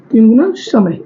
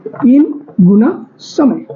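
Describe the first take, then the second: First: Said in the usual way. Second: Slow dictation. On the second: Shown as a demonstration. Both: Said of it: "इसमें तीन गुना".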